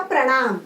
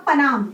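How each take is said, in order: First: प्रणाम with र right after प; with the r sound. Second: पनाम said with no र; plain पनाम, no r; reading without the mark. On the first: Teacher reading the word with the mark. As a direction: let the र in प्रणाम ring. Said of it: "र आ गया बीच में". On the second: Teacher reading the word without the mark. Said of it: "अभी ये ऐसे ही पढ़ेंगे". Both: Shown as a demonstration.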